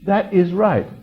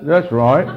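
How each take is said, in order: First: THAT IS RIGHT fully separated, higher and louder; careful proper English. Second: Cockney accent. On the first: Correcting the slangy version, "That is right" in full proper English. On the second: Speaker showing listeners the corrupted English, in Cockney accent. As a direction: imitate a Cockney's casual speech. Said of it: "you know how to speak that way". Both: Shown as a demonstration.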